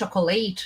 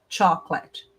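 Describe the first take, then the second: First: The word is said with three syllables. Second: The word is said with two syllables. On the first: The speaker calls it wrong. "você está pondo uma sílaba a mais" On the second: The speaker calls it right. "Duas sílabas"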